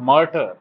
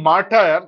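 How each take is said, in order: First: It uses the standard English pronunciation of the word. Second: It uses the common local pronunciation of the word. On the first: The speaker calls it right. "কিন্তু এটা actually উচ্চারণ হচ্ছে মার্টার" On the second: The speaker calls it wrong. "এটা উচ্চারণ আমরা বলি মার্টার"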